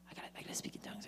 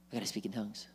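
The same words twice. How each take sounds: First: Anxious whispered repetition; whispering. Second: Softly fretting to himself; a worried seeker murmuring under his breath; anxious. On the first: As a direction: whisper it like a nervous seeker. Anxious seeker at the altar. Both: Acted.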